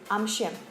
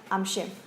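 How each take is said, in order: First: The words are squeezed together into one syllable. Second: The words are squeezed together into one syllable.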